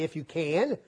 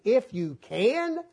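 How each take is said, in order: First: Said in the usual way. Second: Slow, drawn-out incredulous echo; Jesus echoing the father's doubt, incredulous; mocking the doubt. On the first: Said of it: "didn't come say". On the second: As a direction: drag out "If you can" in disbelief. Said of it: "now you ask the question".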